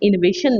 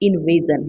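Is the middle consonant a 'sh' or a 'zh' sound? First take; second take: sh; zh. First: The middle consonant is a voiceless 'sh' sound. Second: The middle consonant is a voiced 'zh' sound. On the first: The speaker calls it wrong. "इन्वेशन नहीं" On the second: The speaker calls it right. "इन्वेजन है ना?"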